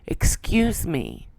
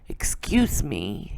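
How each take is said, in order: First: It is said louder. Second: It is said softly.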